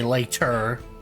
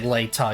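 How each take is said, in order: First: The final r sound is strongly pronounced. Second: The final r sound is dropped. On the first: The speaker calls it right. "you say later. You gotta emphasize the er" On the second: The speaker calls it wrong. "You don't say later"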